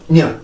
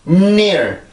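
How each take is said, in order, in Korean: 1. 이 단어는 코에 힘을 주지 않고 평범하게 시작해요. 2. 이 단어는 힘껏 밀어내는 강한 콧소리 험으로 시작해요. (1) "그냥 near, near, near, near 이렇게 가는 게 아니라" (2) "near 앞에 음, 음과 같은 이제 강하게 소리를 밀어내는 그 동작이 있어야"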